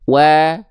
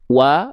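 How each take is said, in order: First: The vowel is said with lips in slight smile. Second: The vowel is said with the mouth simply open. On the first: The speaker calls it right. "sambil senyum atau sedikit senyum" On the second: The speaker calls it wrong. "hanya buka mulut saja"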